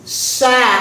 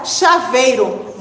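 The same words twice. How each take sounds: First: "Chaveiro" split into cha, vei, ro; syllable by syllable. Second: Said in the usual way. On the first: Shown as a demonstration. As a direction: pause after each syllable of "Chaveiro". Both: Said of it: "Vamos ler chaveiro juntos".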